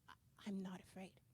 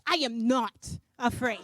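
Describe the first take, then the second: First: It is said hesitantly, with a stammer. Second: It is said defiantly, stressing each word.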